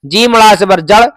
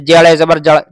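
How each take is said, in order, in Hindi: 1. पहले अक्षर का नाम पूरा और अलग-अलग बोला गया है। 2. पहले अक्षर का नाम जुड़ा हुआ और छोटा करके बोला गया है। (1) "जीम पूरा कहना है ना" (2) "जेड़े जबर जड़ नहीं"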